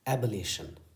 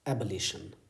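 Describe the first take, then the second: The two takes are said the same way.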